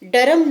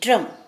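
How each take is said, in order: First: An extra vowel separates the d and r. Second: The d and r are joined without a vowel. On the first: The speaker calls it wrong. "डरम नहीं" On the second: The speaker calls it right.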